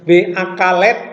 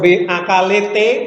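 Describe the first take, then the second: First: One extra vowel is inserted before the final consonant. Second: Extra vowels are added after both final consonants. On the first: "Tidak dipunya V akalet" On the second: "atau V akalete"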